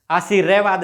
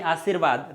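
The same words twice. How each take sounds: First: आशीर्वाद said as "aa-shee-RE-vaad"; mispronounced full r. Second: Said in the usual way. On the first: Shown as a demonstration. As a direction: give the r in आशीर्वाद a whole loud syllable, "re". (आशीर्वाद में पूरा "रे" बोलते हुए, "आशीरेवाद") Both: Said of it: "रे थोड़ा सा आधा है तो".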